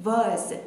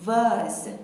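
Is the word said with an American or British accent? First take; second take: British; British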